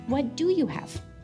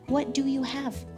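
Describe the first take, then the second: First: It is said in a gentle way. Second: The same.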